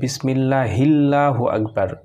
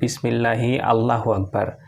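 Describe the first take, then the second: First: Allahu runs straight on from bismillahi without 'a'. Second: Allahu starts with its own separate 'a' sound. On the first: "উচ্চারণ এইভাবে হবে যে বিসমিল্লাহিল্লাহু আকবার" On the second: "এটা ভুল হবে"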